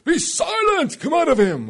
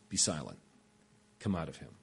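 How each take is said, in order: First: It is yelled loudly. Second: It is said quietly and calmly.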